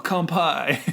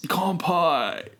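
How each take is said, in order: First: Lighter surfer toast. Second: Laid-back, high surfer drawl; surfer dude voice. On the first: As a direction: toast it like a beach dude. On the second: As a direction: play a chill beach surfer. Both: Pretend. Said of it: "I don't like your surfer voice".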